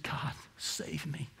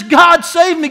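First: Hushed, slow whisper of "God, save me"; a broken man whispering to God; whispered plea. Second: Loud, high cry of "God save me"; a desperate prayer shouted aloud; shouted plea. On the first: Retold or imitated. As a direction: breathe "God, save me" barely aloud. Prisoner's quiet plea. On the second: Acted. Acted repentant cry.

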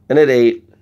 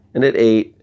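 No difference in how they are said.

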